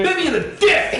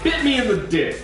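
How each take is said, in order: First: The phrase is yelled loudly. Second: The phrase is said at normal speaking volume.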